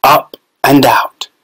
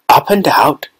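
First: Slow, measured reading of the sign "Up and out"; a hint of a solemn sign reading "Up and out"; label read out. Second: "Up and out" asked as a puzzled question. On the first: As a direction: read "Up and out" slowly, like the words on a label. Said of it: "It said". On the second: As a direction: echo "Up and out" in mild wonder. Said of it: "thought Charlie". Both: A narrator's reading.

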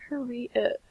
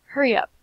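First: Said in the usual way. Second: Urgent hurry. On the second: Real, not acted.

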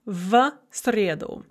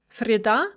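First: "в среду" slow, with "сре" stressed; slowly, weight on "сре" in "среду"; stress on first syllable. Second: "Среда" as sre-DA, final syllable stressed; stress on second syllable. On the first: Teacher contrasting accusative with nominative, "среду" stressed at the start. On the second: Teacher contrasting nominative with accusative, "Среда" stressed at the end. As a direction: put the weight on "да" in "Среда". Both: Shown as a demonstration. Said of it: "very common stress shift".

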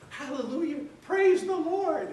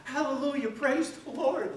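First: Loud, high, drawn-out hallelujah; joyful shout. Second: High, loud, slow cry of praise; joyful shout. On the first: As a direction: shout it to the heavens, slow and high. Healed man leaps up rejoicing. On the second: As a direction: belt out the praise with glee. Second healed man rejoicing. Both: Retold or imitated.

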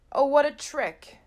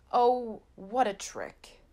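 First: Loud, higher exclamation; Oh, what a trick! cried out high and loud; outcry. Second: Deflated. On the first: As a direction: burst out at the unfair trick. Ball kicked away, dismay. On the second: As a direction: let the second one sink. Repeated, deflated. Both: A narrator's reading.

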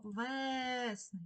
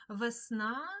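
First: Весни with a long stressed Е in the first syllable; stressed, stretched Е. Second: Весна with the final А stressed, rising; stress on last syllable. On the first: Teacher giving the check word, весни stressed on long Е. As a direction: draw out the Е in весни so it is clearly heard. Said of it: "Чуємо Е". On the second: Teacher posing a spelling example, весна stressed on final А. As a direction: lean on the ending of весна, louder. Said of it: "наголос падає на останній склад". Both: Shown as a demonstration.

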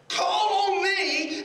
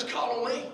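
First: High, loud and drawn-out call; ringing proclamation. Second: Said in the usual way. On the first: Acted. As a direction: stretch it out like a preacher proclaiming. Repeats God's words as proclamation.

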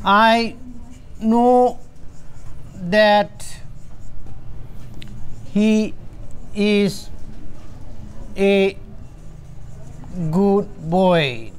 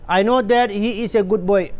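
First: Each word set apart by long pauses; slow dictation. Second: Slow reading. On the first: Teacher dictating an example sentence word by word. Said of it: "Say, for example". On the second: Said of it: "ꯁꯤ sentence ꯑꯃ ꯅꯠꯇ꯭ꯔꯥ". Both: Shown as a demonstration.

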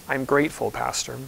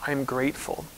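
First: Soft, lower repeat, the stress on grateful and falling; hushed I'm grateful, then Pastor almost breathed; quiet grateful reply. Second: Soft, hushed quote with the stress on I'm; a gentle, hushed I'm grateful, rising at the end; quiet grateful reply. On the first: Pastor repeating a church member's answer, softly. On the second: Quoting a church member's answer to how she is, hushed. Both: Retold or imitated. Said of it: "she always responds by saying".

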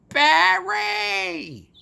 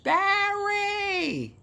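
First: Put-on high, loud Bronx-accented Barry; Bronx call. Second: Put-on very high Bronx-accented Barry!; Bronx call, again. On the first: Calls out to Barry across the party in a Bronx accent. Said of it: "with my Bronx accent". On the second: Retakes the call to Barry in a Bronx accent. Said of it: "I did it again".

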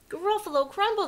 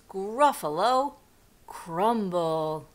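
First: High, loud alarmed repeat; panicked storybook monster; horrified echo. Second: Deliberate, ominous mouse boast; menacing announcement. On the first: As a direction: blurt it back in fright. Gruffalo repeats it in horror. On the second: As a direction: spell out the threat word by word. Mouse threatens the gruffalo. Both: Acted.

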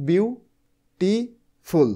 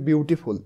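First: বিউটিফুল slowly split into three, বিউ, টি, ফুল, with clear gaps; syllable by syllable. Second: Said in the usual way. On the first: Shown as a demonstration. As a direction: break বিউটিফুল into বিউ... টি... ফুল, pausing after each syllable. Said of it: "এটা উচ্চারণ করতেছি আমি, দেখো কিভাবে". (বিউটিফুল ধীরে তিন ভাগে ভেঙে, থেমে থেমে: বিউ, টি, ফুল) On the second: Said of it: "এটা উচ্চারণ করতেছি আমি".

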